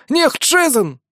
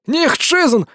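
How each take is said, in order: First: Desperate wailing cry. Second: High, strained pleading cry; desperate wailing cry. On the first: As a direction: keep wailing, still begging. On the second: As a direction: wail it, begging for mercy. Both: Acted. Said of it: "надрывался охранник".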